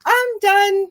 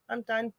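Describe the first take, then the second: First: Breezy mock quitting. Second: Much softer, worn-out I'm done; quiet resigned quitting. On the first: Grandmother's caregiver quitting, retold. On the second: Retold or imitated. Guest retelling quitting caregiving, soft and resigned. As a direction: let it drop, tired and final. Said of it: "it wasn't being vicious".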